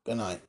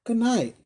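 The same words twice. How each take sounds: First: Low, soft good night; Tackleton's farewell. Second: High-pitched, hurried-away good night; little woman's farewell. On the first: Tackleton returns the wife's farewell, low and quiet. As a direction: answer in a dropped, quiet voice. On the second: Wife dismisses the visitor, high-voiced farewell. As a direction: send him off in a high voice. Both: Acted.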